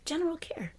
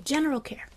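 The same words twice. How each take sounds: First: Softly whispered General care. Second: Said in the usual way. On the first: Shown as a demonstration. Teacher repeating General care to the class in a whisper. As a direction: breathe General care as a hush. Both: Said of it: "Just general care".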